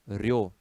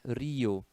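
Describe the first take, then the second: First: The i is unstressed and glides into the o. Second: The i is stressed and forms its own syllable. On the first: The speaker calls it wrong. "senão ficaria" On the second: The speaker calls it right. "precisa de é, acento"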